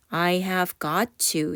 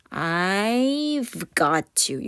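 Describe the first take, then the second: First: I have got to said slowly with every word full; full form, slow. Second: "I've got to" with I have squeezed into I've, very slow; contracted I've. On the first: Teacher modelling the long form slowly for learners. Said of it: "이게 기니까 I have를 줄여서". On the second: Teacher modelling the contraction for learners. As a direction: drag out "I've got to", the I've clipped. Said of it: "I have를 줄여서". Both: Shown as a demonstration.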